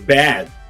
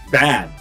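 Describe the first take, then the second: First: The vowel sounds like 'eh', as in bed. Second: The vowel is an open English 'a'. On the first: The speaker calls it wrong. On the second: The speaker calls it right.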